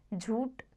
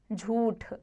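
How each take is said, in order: First: झूठ ending in plain t; wrong aspiration. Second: झूठ ending in aspirated th; correct aspiration. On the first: Teacher shows the error, झूठ without aspiration. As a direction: say झूठ as jhoot. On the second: Teacher corrects it, झूठ with aspirated ending. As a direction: say झूठ as jhooth. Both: Shown as a demonstration. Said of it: "अल्प प्राण, महाप्राण संबंधी".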